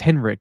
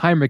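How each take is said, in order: First: The name begins with a 'hen' sound. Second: The name begins with a 'hine' sound. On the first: The speaker calls it right. "it's Henrik. There's no I in it before the E" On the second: The speaker calls it wrong. "It's not Heinrich"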